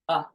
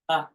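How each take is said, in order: First: It is said as a short uh. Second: The same.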